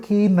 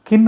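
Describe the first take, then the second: First: "కీన్" with a long ee; long vowel. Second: "కిన్" with a short, quick i; short vowel. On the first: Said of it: "కీన్ అంటే వేరు". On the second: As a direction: keep the vowel in "కిన్" brief. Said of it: "కిన్ అంటే వేరు, కీన్ అంటే వేరు". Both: Shown as a demonstration.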